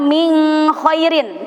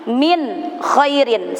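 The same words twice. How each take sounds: First: The n sound in min is blurred. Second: The n sound in min is clear. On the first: The speaker calls it wrong. "itu salah" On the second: The speaker calls it right. "sebab kho termasuk huruf izhar"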